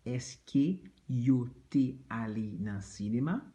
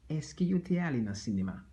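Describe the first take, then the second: First: Said in the usual way. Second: 'Est-ce que yo te ale nan sinema?' rattled off fast at natural speed; quick repeat. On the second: Shown as a demonstration. Teacher repeats the question fast at native speed. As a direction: run through it quickly.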